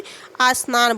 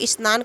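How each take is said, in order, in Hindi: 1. संयुक्त व्यंजन से पहले एक अतिरिक्त स्वर जोड़ा जाता है। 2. शब्द सीधे संयुक्त व्यंजन से शुरू होता है।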